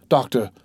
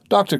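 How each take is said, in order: First: Said in the usual way. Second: High, loud cry. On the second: A narrator's reading. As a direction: cry out desperately for doctor. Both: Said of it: "cried Berroir".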